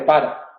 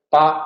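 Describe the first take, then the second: First: The word keeps both of its syllables. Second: The word is cut to one syllable.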